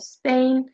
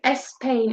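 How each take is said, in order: First: The word starts directly with the s sound. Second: An extra vowel is added before the s. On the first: The speaker calls it right. "instead of Spain" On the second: The speaker calls it wrong. "They often insert an extra vowel"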